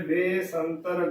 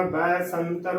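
First: "ਬੇ ਸੰਤਰ" with a closed bay; wrong pronunciation. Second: "ਬੈ ਸੰਤਰ" with open è in the first syllable; correct pronunciation. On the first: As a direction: narrow the vowel in "ਬੇ ਸੰਤਰ": bé-santar. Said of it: "ਗਲਤ ਉਚਾਰਨ ਹੋਵੇਗਾ". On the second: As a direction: say "ਬੈ ਸੰਤਰ" as bè-santar. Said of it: "ਬੈ ਸੰਤਰ ਉਚਾਰਨ ਕਰਨਾ ਹੈ". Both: Shown as a demonstration.

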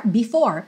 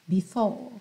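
First: "before" with a curled final R; R pronounced. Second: "before" with no final R, British style; R dropped. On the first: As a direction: say "before" American style, R sounded. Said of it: "if you prefer". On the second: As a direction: say "before" softly as bih-faw. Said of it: "Or before, if you prefer". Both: Shown as a demonstration.

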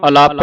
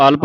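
First: ਅਲਪ as 'a-LAAP'; wrong long vowel. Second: ਅਲਪ as 'ALP', no long aa; correct short vowels. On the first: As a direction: stretch the second vowel of ਅਲਪ to 'aa'. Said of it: "ਅਲਪ ਨਹੀਂ ਪੜ੍ਹਨਾ". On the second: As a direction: close l straight onto p in ਅਲਪ. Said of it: "ਇਸ ਨੂੰ ਅਲਪ ਪੜ੍ਹਨਾ ਹੈ". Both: Shown as a demonstration.

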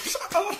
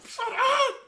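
First: High exasperated yell; sharp yell. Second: High yell breaking into a laugh. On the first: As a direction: bark it at your friend to stop. Snaps at friend mid-rage. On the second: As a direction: yell it while cracking up. Same words, now laughing. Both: Real, not acted.

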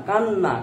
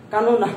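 First: কান্না in two syllables, "kan-na"; everyday pronunciation. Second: কানো না with an added o, louder; unused pronunciation. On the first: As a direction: run the doubled n together in কান্না. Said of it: "কানো না বলি না". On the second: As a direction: sound out "ka-no-na" in three parts for কানো না. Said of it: "বলি না". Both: Shown as a demonstration.

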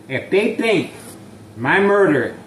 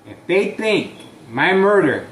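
The two takes are said the same way.

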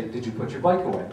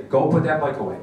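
First: Said in the usual way. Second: A louder, firm order; firm command. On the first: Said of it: "usually you probably say". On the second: Shown as a demonstration. Parent ordering daughter about the bike, firm and louder. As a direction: tell her, don't ask her. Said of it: "you gotta go and say".

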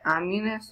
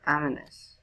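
First: "ominous" said with a y-glide, AH-myoo-nus; alternative pronunciation. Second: "ominous" said AH-muh-nus, without glide; alternative pronunciation. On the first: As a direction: put a "myoo" in the middle of "ominous". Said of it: "I don't know how to say it". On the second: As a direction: reduce the middle of "ominous" to a plain "muh". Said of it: "Do you guys say it". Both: Shown as a demonstration.

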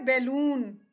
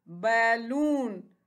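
First: Said in the usual way. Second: balloon very slow, as बै and लून; split into syllables. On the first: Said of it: "ये क्या है". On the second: Shown as a demonstration. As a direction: stretch both beats of balloon. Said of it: "इसके कितने syllables हैं". (Balloon को दो हिस्सों में, धीरे)

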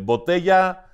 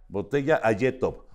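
First: Said in the usual way. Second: Ayetov, botella said backwards; backwards speech. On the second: Shown as a demonstration. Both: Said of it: "fíjate, por ejemplo".

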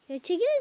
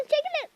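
First: Said in the usual way. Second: "çekilin" shot up much higher in pitch; "çekilin" yelled high and impatient at soldiers blocking the way; exasperated yell. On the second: Real, not acted. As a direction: push the repeat up into an impatient cry. Urging units to move aside.

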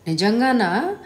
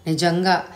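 First: Asks with a rising, doubtful tune on నిజంగానా; నిజంగానా lifted into a question; half-believing question; questioning rise. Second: నిజంగా said short with a falling, sure tune; flat confirming statement; settled answer. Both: Acted. Disbelieving question then affirmation.

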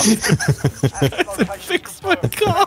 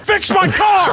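First: Drawn out very slowly, lower and softer; slow drawl. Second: Shouted. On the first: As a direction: stretch every word out slowly. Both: Acted.

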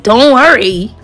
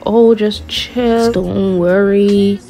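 First: Punchy, incredulous mimicked repeat; incredulous echo. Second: Very slow, laid-back imitation; drawn-out reassurance. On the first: Girl echoing the date's reassurance in her head, incredulous. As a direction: throw his words back in disbelief. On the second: Date brushing off where they are going, lazily reassuring. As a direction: stretch every word as a mock soothing brush-off.

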